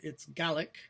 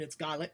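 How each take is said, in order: First: The word is said the English way. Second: The word is said the Scottish way. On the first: "In uh, England" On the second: "In Scotland"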